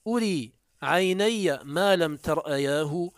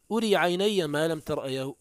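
First: أري عيني ما لم ترأياه recited slowly, lifting on ما; reciting verse. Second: Said in the usual way. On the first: Shown as a demonstration. Teacher quoting the poet Suraqa, slow verse recitation. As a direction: declaim the verse line slowly and deliberately. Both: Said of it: "قال سراقة البارقي".

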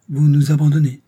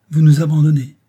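First: Louder, higher, stress on Vous; hurt accusation. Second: Louder, higher, lips pressed in reproach; a wounded matron accusing; pinched reproach. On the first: Madame Brun repeats her reproach, stress on "Vous". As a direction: lean hard on "Vous" in wounded blame. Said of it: "en pinçant les lèvres". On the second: Madame Brun to the engineer, pinched and reproachful. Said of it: "fit madame Brun en pinçant les lèvres". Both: Acted.

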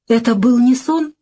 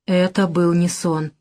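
First: Higher, rising "Это был не сон?"; a mildly pleading, plaintive query; plaintive question. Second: Slow, falling statement on "Это был не сон"; inner thought. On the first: Woman asking the man's turned back, plaintive question. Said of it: "жалобно спрашиваю я". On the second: Woman thinking to herself after the row, slow inner thought. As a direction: think it to yourself, slowly. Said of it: "а сама думаю". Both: A narrator's reading.

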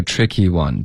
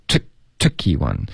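First: "tricky one" eased and evenly linked; relaxed stress. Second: "trick" punched out, then a top-heavy "tricky one"; forced stress. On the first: Shown as a demonstration. Teacher showing the fix, relaxed "tricky one". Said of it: "这段放松". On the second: Retold or imitated. Teacher imitating the student's overdone stress, forced "tricky one". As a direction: hit "trick" too hard in "tricky one". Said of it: "不要trick".

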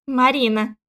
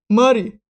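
First: "Марина" said firmly in full; "Марина", a pointed correction with the -на sounded; insistent correction. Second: "Мари" said loudly without the final -на; "Мари", clipped nickname for Марина; mangled name. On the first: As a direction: insist on all three syllables of "Марина". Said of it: "настойчиво". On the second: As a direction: shorten the name to a forceful "Мари". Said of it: "исковеркал моё имя". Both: A narrator's reading.

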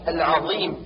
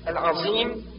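First: العظيم with emphatic dh; tongue between teeth for ظ in العظيم; true zaa. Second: العظيم with heavy z for ظ; zaa as emphatic z. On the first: Teacher corrects, العظيم with heavy dh. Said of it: "والصواب". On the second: Teacher shows the error, العظيم with emphatic z. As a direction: buzz the ظ of العظيم like a z-tinged ص. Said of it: "والنطق بالضاء صادا مشمة بزاي". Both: Shown as a demonstration.

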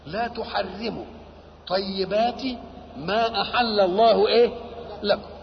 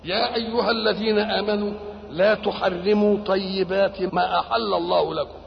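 First: "لا تحرموا", "طيبات", "ما أحل الله" each set apart by pauses; phrase-by-phrase repetition. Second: Said in the usual way. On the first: Shown as a demonstration. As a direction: break after "لا تحرموا" and "طيبات", then prompt on "إيه؟". Repeats verse piece by piece, prompting.

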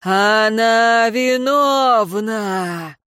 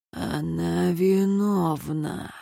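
First: Slow, drawn-out accusing cry; long wailing verdict called out. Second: Eerie, stretched-out hushed verdict; hushed accusation. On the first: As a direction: proclaim it, stretching every vowel. Eerie accusation, cried out loud. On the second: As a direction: let it seep out slowly and softly. Eerie words from another's lips. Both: A narrator's reading.

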